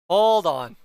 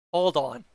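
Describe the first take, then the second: First: Loud. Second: Said in the usual way. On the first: Real, not acted. Repeats it, much louder.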